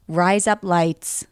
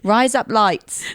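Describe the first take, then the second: First: It is said in an American accent. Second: It is said in an Australian accent. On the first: The speaker calls it right. "you have to do it in an American accent" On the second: The speaker calls it wrong. "I'm trying to do it a bit Australian"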